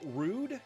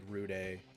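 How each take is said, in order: First: The name is said as one plain syllable. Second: The name ends with an added accented e sound. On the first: "is it rude? Is that how you say it" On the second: "a chicken on the e, so it's like rude a"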